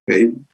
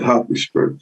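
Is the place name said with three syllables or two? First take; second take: two; three. First: The name is said with two syllables. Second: The name is said with three syllables. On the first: This is how people in England might say it. "In England, they pronounce, you know, the name of the town maybe a little differently" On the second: This is the speaker's own uncertain reading. "I don't know if I'm pronouncing that correctly"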